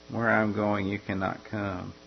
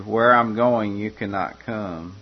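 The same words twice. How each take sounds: First: Soft repeat. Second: Said in the usual way. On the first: Acted. Preacher echoing Jesus's farewell softly to listeners. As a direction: repeat it softer, letting it sink in.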